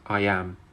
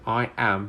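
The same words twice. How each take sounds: First: A y sound links the two words together. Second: The two words are said separately, without linking.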